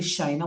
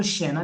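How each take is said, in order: First: शाइना as sha plus ina; separated vowels. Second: शैना with one open e vowel, SHE-na; merged vowel sound. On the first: Teacher giving the French reading of the name, separated vowels. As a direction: sound both a and i in शाइना. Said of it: "French में भी तो शाइना बोलूंगा". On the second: Teacher showing what the name is not, merged vowel. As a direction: say शैना with the AI blended into e. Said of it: "इसको शैना नहीं बोल रहे". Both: Shown as a demonstration.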